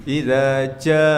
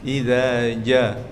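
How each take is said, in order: The two takes are said the same way.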